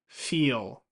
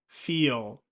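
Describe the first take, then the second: The two takes are said the same way.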